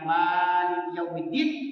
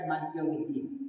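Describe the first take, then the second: First: The vowel after the m is held long. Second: The vowel after the m is kept short. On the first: "kita panjangkan mimnya" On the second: "dengan memendekkan mimnya"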